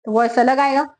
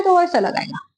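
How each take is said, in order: First: Voicing a big flute with a slightly lower tone; teacher shows how a big flute sounds, a touch lower. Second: Voicing a small flute with a slightly higher tone; teacher shows how a small flute sounds, a touch higher. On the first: Teacher demonstrating a big flute to students, slightly lower tone. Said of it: "अगर वो flute बहुत ज्यादा बड़ा है". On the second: Teacher demonstrating a small flute to students, slightly higher tone. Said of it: "अगर वो flute बहुत छोटा है". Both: Shown as a demonstration.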